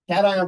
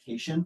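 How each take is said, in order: First: The word does not sound like 'vacation'. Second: The word sounds like the end of 'vacation'. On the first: The speaker calls it right. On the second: The speaker calls it wrong.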